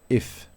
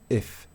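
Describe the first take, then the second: The two takes are said the same way.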